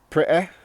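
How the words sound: Said in a regional accent with the t dropped. "this is how I would pronounce them"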